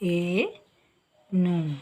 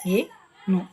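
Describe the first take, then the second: First: The first vowel is long. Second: The first vowel is short. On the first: The speaker calls it right. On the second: The speaker calls it wrong.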